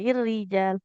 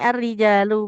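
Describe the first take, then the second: First: The word begins with the vowel i. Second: The word begins with the vowel a. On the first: The speaker calls it wrong. "bukan ir-rijal" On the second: The speaker calls it right. "Sama ini ar-rijalu"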